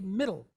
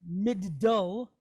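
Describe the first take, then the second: First: The d is said once, smoothly joined. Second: The d is split across two separate syllables. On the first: The speaker calls it right. "But we just say middle" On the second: The speaker calls it wrong. "We're not going to say like mid-dull"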